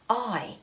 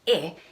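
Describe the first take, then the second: First: A long vowel sound, like the word eye. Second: A short vowel sound, like in pin. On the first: "it says its name" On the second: "instead of saying its sound"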